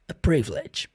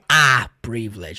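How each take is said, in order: First: The article has a short, weak vowel. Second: The article has a full, strong vowel. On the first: The speaker calls it right. "é o som do a" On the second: The speaker calls it wrong. "Esse a não é a privilege"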